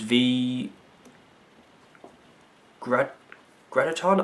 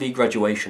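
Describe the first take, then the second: First: The name ends without a 'shun' sound. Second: The name ends with a 'shun' sound. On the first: The speaker calls it right. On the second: The speaker calls it wrong.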